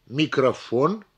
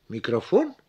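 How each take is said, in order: First: «микрофон» with the final «фон» stressed and stretched; stress on last syllable. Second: «микрофон» as a question, voice jumping up on «фон». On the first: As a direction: lean on «фон» without asking a question. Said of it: "то же самое с последним слогом". (ударение на последний слог «фон») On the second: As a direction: ask «микрофон?», rising sharply on the last syllable. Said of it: "а вопросительно". (вопросительно, с повышением голоса на «фон») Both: Shown as a demonstration.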